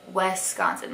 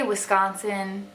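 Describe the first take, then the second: First: "Wisconsin" as WES-consin, like west without the t; Southern Wisconsin. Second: "Wisconsin" with a clear short i, wiss-CON-sin; proper Wisconsin. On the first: Retold or imitated. Vlogger imitates Southerners mispronouncing her home state. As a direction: open the first vowel into "wes". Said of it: "a lot of Southerners will say". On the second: Shown as a demonstration. Wisconsin native shows the right way to say it. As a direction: say "Wisconsin" the local way. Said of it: "I say Wisconsin like".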